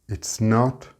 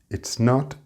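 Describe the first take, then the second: Both takes have the same delivery.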